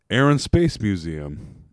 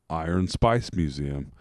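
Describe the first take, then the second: First: It is said in a plain American accent. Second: It is said in an Australian accent.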